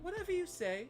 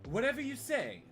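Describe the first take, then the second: First: It is said softly in a put-on British accent. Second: It is read in an ordinary, unaccented voice.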